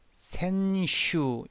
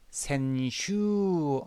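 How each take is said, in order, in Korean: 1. 마지막 모음은 단음이에요. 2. 마지막 모음은 장음이에요. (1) "이건 장음이 아니네요" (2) "얘가 장음이네요"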